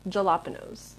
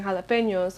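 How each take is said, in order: First: "jalapenos" with a hard j and plain n: ja-LAP-enos; mispronounced jalapenos. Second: "jalapenos" with an h sound and ny: ha-la-PEN-yos; "jalapenos" as hah-lah-PAIN-yos; usual Spanish-style pronunciation. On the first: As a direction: read "jalapenos" as spelt, j as in jam. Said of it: "I would say jalapenos". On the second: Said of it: "instead of saying jalapenos". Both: Shown as a demonstration.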